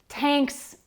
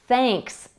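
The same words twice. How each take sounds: First: It starts with a plain t sound. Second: It starts with a th sound. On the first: The speaker calls it wrong. "if an English learner says t instead of the" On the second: The speaker calls it right. "and not thanks"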